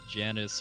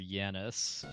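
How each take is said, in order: First: The name begins with a J sound. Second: The name begins with a Y sound. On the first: It follows the English link to January. "I go with the J sound because it's supposed to be like January" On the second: It follows the Latin pronunciation. "in Latin I thought it would be Yanis"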